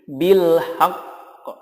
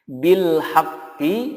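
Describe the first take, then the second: First: The phrase ends on a stressed bare q. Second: The phrase ends with a vowel after q. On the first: The reader stops on this word. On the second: The reading continues without stopping.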